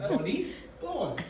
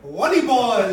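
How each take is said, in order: First: "Volley, ball" said slowly in two clear parts; correct pronunciation. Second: "Volleyball" blurted much louder as a proud shout, mangling the V; mispronounced shout. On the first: Shown as a demonstration. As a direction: pause gently between "Volley" and "ball", both slow. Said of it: "It's not a complicated word". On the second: Retold or imitated. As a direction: shout "Volleyball" loud, proud and wrong, like a schoolboy. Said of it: "I just went".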